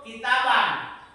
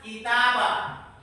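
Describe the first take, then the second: First: The word ends with a short a and n. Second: The word ends with a long a, no n.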